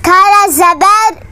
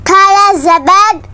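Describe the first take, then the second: No difference in how they are said.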